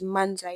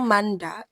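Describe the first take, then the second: First: The middle consonant is a strong T sound. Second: The middle consonant is a soft D sound. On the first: The speaker calls it right. "it is manza" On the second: The speaker calls it wrong. "It is not manda"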